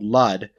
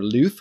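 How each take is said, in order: First: The name ends with a D sound. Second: The name ends with a TH sound. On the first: The speaker calls it wrong. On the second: The speaker calls it right.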